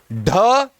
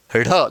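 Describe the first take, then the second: First: ढ as a drawn-out hard retroflex stop; forceful undotted ढ. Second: ढ as a lower, lighter flapped rh; dotted flapped ढ़. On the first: Teacher contrasts two letters for students, ढ hard and rising. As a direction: strike ढ firmly with a puff of breath. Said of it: "पूरी तरह जोर देके बोलना है". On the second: Teacher contrasts two letters for students, ढ flapped and lower. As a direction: flap the tongue quickly on ढ. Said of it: "दोस्तों ध्यान से सुनना". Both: Shown as a demonstration.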